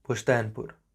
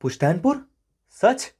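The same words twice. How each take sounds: First: Said in the usual way. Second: Rising, high, louder questions; astonished "can it be true?"; delighted surprise. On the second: Acted. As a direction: ask it in happy disbelief, voice leaping up. Hero reacts to surprise news.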